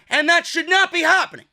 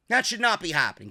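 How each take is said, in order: First: High, louder push on "should not be happening"; "should not be happening" pitched up in protest; emphatic objection. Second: Said in the usual way. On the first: Real, not acted. Indignant about the booking, then repeats calmly.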